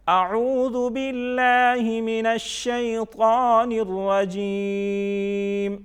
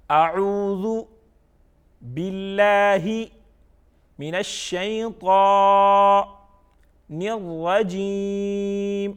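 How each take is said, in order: First: Slow, higher, louder chant in one flow; joined-up recitation. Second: Slow, loud chant broken into parts; recitation by parts. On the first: Quran teacher reads it together for pupils, flowing chant. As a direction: recite it all connected, holding long vowels. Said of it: "اب ہم اس کو اکٹھا پڑھتے ہیں". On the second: Quran teacher reads it by parts for pupils, slow chant. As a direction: recite piece by piece, holding the long vowels. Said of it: "by parts پڑھ لیا". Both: Shown as a demonstration.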